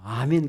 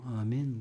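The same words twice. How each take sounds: First: It is said loudly and with enthusiasm. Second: It is said weakly and without enthusiasm.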